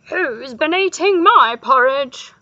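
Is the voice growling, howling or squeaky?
howling. It is said in a howling voice.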